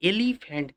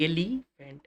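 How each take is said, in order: First: Said in the usual way. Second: "এলিফ্যান্ট" split into two beats, এলি and ফ্যান্ট; teacher breaking "এলিফ্যান্ট" into two spoken parts; syllable demonstration. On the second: Shown as a demonstration. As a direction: say "এলিফ্যান্ট" in two pieces, a short gap before ফ্যান্ট. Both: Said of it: "দুবার উচ্চারণ করতে হচ্ছে".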